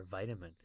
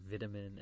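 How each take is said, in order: First: Vitamin with a long eye sound; vitamin opening like the word "vie"; American pronunciation. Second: Vitamin with a short first i; vitamin opening like "vit" in "vitality"; British pronunciation. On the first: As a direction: say the second vitamin as VY-tamin. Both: Shown as a demonstration. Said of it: "different pronunciation of vitamin or vitamin".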